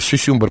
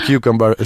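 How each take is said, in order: First: The word starts with a 'syu' sound. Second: The word starts with a 'kyu' sound. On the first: The speaker calls it wrong. "«сюсюмбр» прочитала" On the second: The speaker calls it right.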